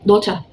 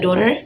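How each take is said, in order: First: Daughter with a clear t and no r; British daughter. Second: Daughter with a flapped t, like Dora; American daughter. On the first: Teacher shows the British Daughter to her class. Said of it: "bisa daughter atau Dora". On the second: Teacher shows the American daughter to her class. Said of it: "pelafalan Amerika". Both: Shown as a demonstration.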